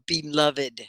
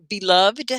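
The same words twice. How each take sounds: First: BELOVED said "be-luv-id"; extra final syllable. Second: BELOVED said "be-luvd"; silent final e. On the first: Teacher offers the other way to say it, extra syllable. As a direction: sound the -ed of BELOVED as its own syllable. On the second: Teacher asks how the word is said, last syllable merged. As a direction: end BELOVED on -vd, no extra syllable. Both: Shown as a demonstration. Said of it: "Is it one syllable or two?".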